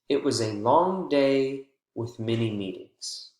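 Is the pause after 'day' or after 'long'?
after day. The pause comes after the word day.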